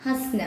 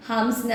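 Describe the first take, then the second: First: ഹസ്ന with no nasal, just has-na; correct pronunciation. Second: ഹംസ്ന with a nasal m, the spelled form shown as wrong; wrong pronunciation. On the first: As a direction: say ഹസ്ന cleanly, dropping the m. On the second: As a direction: say ഹംസ്ന with the written m sounded. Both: Shown as a demonstration. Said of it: "pronunciation ഹംസ്ന എന്നല്ല".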